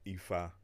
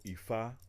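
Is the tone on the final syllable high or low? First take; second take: low; high. First: The final syllable has a low tone. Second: The final syllable has a high tone. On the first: A free gift or unexpected blessing. "on a downtone on the A" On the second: The voice of God. "uptone on the A"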